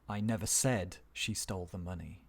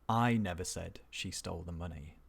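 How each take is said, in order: First: The stress falls on the word said. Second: The stress falls on the word I. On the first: It was suggested or hinted, not said outright. "let's move down one more" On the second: Someone else said it, not the speaker. "somebody said it, but not me"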